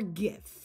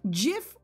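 First: It starts with a hard G sound. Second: It starts with a soft J sound. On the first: "Is it soft or hard?" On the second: "Is it soft or hard?"

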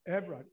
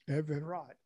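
First: The name is said in a shortened form. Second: The name is said in its full form. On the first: It avoids sounding rude to women. "I'm going to pronounce my name Evrod" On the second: It is the real, proper name. "Everard is my right name"

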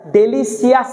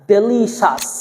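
First: The ending is said as 'see-us'. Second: The ending is said as 'shus'. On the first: The speaker calls it wrong. "সিয়াস পড়া যাবে না" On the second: The speaker calls it right. "CIOUS শ্বাস"

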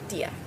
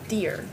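First: It is said with a German accent. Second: It is said with a strong American accent. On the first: The speaker calls it right. "But it's pronounced in German" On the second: The speaker calls it wrong. "If I had a strong American accent, I would say dear"

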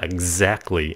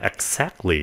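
First: The x is said with a z sound. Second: The x is said with an s sound. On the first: The speaker calls it right. "nó là exactly, âm Z" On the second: The speaker calls it wrong. "nó không phải là exactly"

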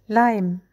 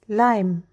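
The two takes are said the same way.

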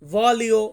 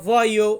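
First: The middle has a clear L sound. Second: The middle has a soft y-like sound. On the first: The speaker calls it wrong. "অনেকে আমরা বলি ভলিও" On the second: The speaker calls it right. "শুদ্ধ উচ্চারণটা করলে আমরা বলবো ভয়ো"

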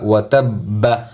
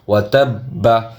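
The two takes are said the same way.

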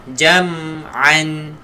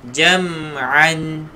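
The two takes are said the same way.

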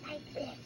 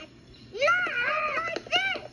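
First: The phrase is said softly and quietly. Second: The phrase is said loudly and forcefully. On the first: The speaker calls it right. "Elmo will be quiet like this" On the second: The speaker calls it wrong. "not like this!"

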